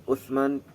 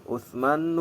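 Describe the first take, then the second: The two takes are said the same way.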